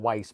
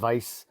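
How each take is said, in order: First: The name begins with a w sound. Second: The name begins with a v sound. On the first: The speaker calls it wrong. "Not not Weiss" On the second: The speaker calls it right. "but the the Vice"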